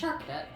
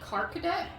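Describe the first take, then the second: First: The name begins with a ch sound. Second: The name begins with a hard k sound. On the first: The speaker calls it right. "right. It's Charkadet" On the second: The speaker calls it wrong. "I can't tell if I've been pronouncing its name wrong"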